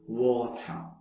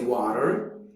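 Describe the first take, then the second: First: A South African accent, with a longer, clearer t. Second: An American accent, with a softer middle t. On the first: "making a little longer and clearer uh, on the sounds of the uh and t" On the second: "In American English, we would say water"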